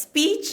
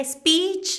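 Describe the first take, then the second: First: Said in the usual way. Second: "speech" said "eh-speech", with a vowel before the S; drawn-out "espeech", Spanish-style; Spanish-speaker accent. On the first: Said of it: "instead of, like". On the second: Retold or imitated. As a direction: put a little "eh" in front of "speech". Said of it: "we say S instead of S".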